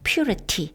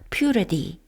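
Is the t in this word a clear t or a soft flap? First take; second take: clear t; soft flap. First: The t is said as a clear, full t. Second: The t is said as a soft flap. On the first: "물론 purity 해도 되고요" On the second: "모음과 모음 사이에 오면 이 소리가 나죠"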